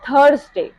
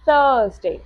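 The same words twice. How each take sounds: First: It begins with a hard 't' sound. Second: It begins with a soft breathy 'th' sound. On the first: The speaker calls it wrong. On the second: The speaker calls it right.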